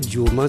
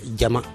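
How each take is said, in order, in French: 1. La première voyelle se prononce comme 'ou'. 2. La première voyelle se prononce comme 'a'. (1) "c'est une déformation" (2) "Et c'est Diama"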